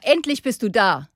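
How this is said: It is said in an angry tone.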